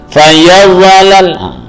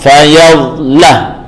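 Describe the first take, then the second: First: The consonant is released early with a bouncing vowel. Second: The consonant is held and flows straight into lam. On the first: The speaker calls it wrong. "maka jadilah tawallud atau mantul" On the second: The speaker calls it right. "jangan dilepas sebelum membaca huruf setelahnya"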